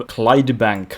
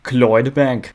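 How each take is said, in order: First: Said in the usual way. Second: "Clydebank" as "Cloydbank", a loose Scottish try; Scottish "Clydebank", a little louder, unsure; attempted Scottish accent. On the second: Shown as a demonstration. Naming his Scottish city, a clumsy Scottish accent. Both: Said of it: "I don't know how to do the accent".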